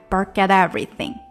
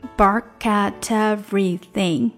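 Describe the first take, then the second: First: The phrase is said at a faster pace. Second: The phrase is said at a slower pace.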